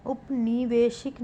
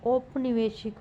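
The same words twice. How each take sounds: First: उपनिवेशिक opening on short u; wrong pronunciation. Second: औपनिवेशिक opening on au; correct pronunciation. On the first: Teacher showing a spelling error, उपनिवेशिक starting "up". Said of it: "नहीं". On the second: Teacher giving the correction, औपनिवेशिक starting "aup". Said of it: "होगा". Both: Shown as a demonstration.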